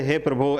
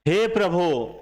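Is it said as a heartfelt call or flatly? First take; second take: flatly; heartfelt call. First: It is said flatly and casually, without calling. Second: It is said as a heartfelt, calling appeal.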